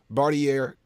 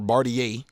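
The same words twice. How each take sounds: First: The name is said in a plain, ordinary way. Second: The name is said in a posh, fancy way.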